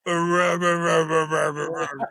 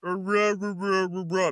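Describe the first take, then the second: First: Loud growled rah rah, like a beast answering; caveman wolf grunts. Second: A hint of a higher child voice babbling rah rah; garbled girl babble. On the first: Retold or imitated. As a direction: bark it out like a half-wolf caveman. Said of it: "and he goes". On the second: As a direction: mimic a child's speech heard as noise. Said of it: "all you hear her say is".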